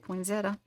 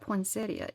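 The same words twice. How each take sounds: First: It is said quickly in a shortened form. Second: Every syllable is said out in full. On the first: "It's just the fast way of saying it" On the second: "It's spelled poinsettia"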